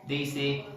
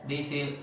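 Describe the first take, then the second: Both takes have the same delivery.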